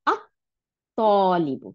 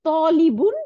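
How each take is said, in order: First: "আত-তলিবু" with the article merged into a held T; slow "আত-তলিবু", L silent; doubled T. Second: "তলিবুন" loud and slow with a single opening T; "তলিবুন" without the article, loud and drawn out; bare word with N. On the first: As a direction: stop on the T in "আত-তলিবু", long vowel, no final N. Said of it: "তখন এটার উচ্চারণ হলো". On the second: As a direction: stretch "তলিবুন", ending on a sounded N. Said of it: "যখন আল দিলাম তখন". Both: Shown as a demonstration.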